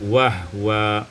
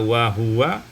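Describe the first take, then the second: First: The h is followed directly by w. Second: A vowel is sounded right after the h.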